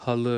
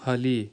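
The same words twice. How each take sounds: First: حل ending in a short dull uh, ha-lı, never ee; dotless-i ending. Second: حلی ending in a clear ee, ha-lee; dotted-i ending. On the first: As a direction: finish حل on a back, unrounded uh. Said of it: "وہ آپ نے اس کی آواز جو ہے وہ نکالنی ہے". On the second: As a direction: finish حلی on a thin ee sound. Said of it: "اگر آپ اس کی آواز نکالیں گے". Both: Shown as a demonstration.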